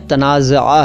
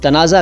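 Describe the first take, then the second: First: The word is said with Arabic-style pronunciation. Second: The word is said with common Urdu pronunciation. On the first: This is the original form of the word. "असल में ये अरबी अंदाज में तनाज़ा है" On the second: This is how people usually say it. "Generally हम लोग तनाज़ा कह देते हैं"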